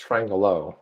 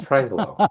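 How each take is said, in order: First: Triangelo with an extra "a" before "low"; mispronounced Triangelo. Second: Triangelo as tri-ang-glow, no "a" before "low"; corrected pronunciation. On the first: Co-host mimics the mistaken name to Jeff, mispronounced with "a-low". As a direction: say Triangelo as tri-ang-a-low. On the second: Co-host corrects Jeff on the name, pronounced without "a-low". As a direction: run "ang" straight into "glo" in Triangelo. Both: Shown as a demonstration. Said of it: "There's no a low in there".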